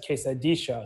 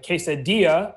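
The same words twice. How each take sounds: First: It is said with an Argentine pronunciation. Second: It is said with the usual general pronunciation. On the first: "he says quesadilla" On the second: "would be how norm, you know, people usually say it"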